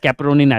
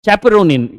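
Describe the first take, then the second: First: The word starts with a k sound. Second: The word starts without a k sound.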